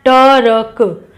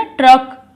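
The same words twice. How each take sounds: First: ट र क drawn out sound by sound; teacher sounding out each letter; slow syllable split. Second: Said in the usual way. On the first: Shown as a demonstration. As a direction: split ट र क slowly for the class. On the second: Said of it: "रा बोला जा रहा है ना".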